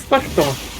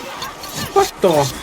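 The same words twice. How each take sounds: First: The word ends with an 'rg' sound. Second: The word ends with an 'rf' sound. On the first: The speaker calls it wrong. "Before you said more like R G instead of R F" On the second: The speaker calls it right. "Now you did it correctly"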